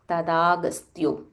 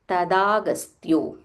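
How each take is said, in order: Both takes have the same delivery.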